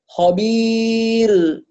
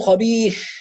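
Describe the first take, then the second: First: The final sound ends voiced, without escaping air. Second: The final sound ends with audible escaping air. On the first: The speaker calls it right. "فهي حرف مجهور وليس مهموس" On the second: The speaker calls it wrong. "خروج هواء ... هذا الهواء خطأ"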